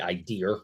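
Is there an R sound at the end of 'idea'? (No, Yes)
Yes. It ends with an added R sound, Boston style. "usually it would be idea"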